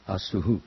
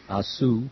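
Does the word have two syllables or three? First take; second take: three; two. First: The word ends with an added 'hu' syllable. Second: The word ends without an echo syllable. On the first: The speaker calls it right. "So the second is the correct" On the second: The speaker calls it wrong. "some of us are pronouncing it Asu"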